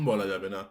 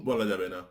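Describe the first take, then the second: Both takes have the same delivery.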